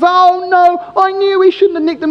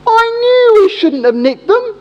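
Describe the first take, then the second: First: Guilty accomplice. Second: High, slow, whiny mock lament of a caught thief; guilty bloke. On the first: Retold or imitated. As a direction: groan it like the accomplice seeing it all go wrong. Accomplice caught, retold. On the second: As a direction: wail it like a caught crook blaming his mate. Thief blames his mate.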